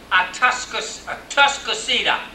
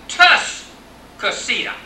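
First: The name starts with a vowel before 't'. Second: The name starts directly with the 't' sound. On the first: "They did not say Atas" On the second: "But the old timer said"

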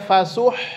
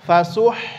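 The two takes are said the same way.

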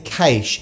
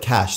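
First: The word is pronounced the Australian way. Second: The word is pronounced the American-British way. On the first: "I'm an Australian, so I say cache" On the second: "the world of Americans and the Brits and others, and they call it cache"

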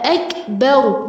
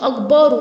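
First: The vowel after the b is short. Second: The vowel after the b is long. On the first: The speaker calls it right. "فتحة ب مش با" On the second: The speaker calls it wrong. "مش با"

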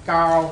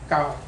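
First: The pitch stays level in the middle. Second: The pitch stays low and level. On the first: "mid-tone is blue" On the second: "low tone"

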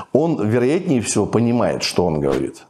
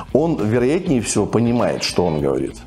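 Both takes have the same delivery.

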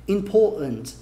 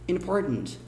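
First: It is said in a London accent. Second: It is said in a New York accent. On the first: "Tem uns londrinos aí que falariam bem important" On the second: "Eu costumo falar com um inglês bem mais nova-iorquino"

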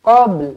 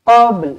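No difference in how they are said.

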